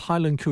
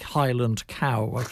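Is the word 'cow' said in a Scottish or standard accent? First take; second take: Scottish; standard. First: Cow is said with an 'oo' vowel, Scottish-style. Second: Cow is said with an 'ow' vowel, standard-style.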